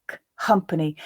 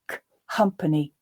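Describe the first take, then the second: No difference in how they are said.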